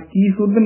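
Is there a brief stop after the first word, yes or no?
no. The two words run together without a stop. The speaker calls it wrong. "ਕੀ ਸੁਧ ਨੀ ਕਹਿਣਾ ਹੈ"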